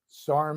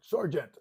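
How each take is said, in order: First: The word is shortened, like sarnt. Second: The word is said in full, sergeant. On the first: This is how Marines usually say the rank. "we pronounced it like that" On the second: This is how critics say it should be said. "Say the whole word"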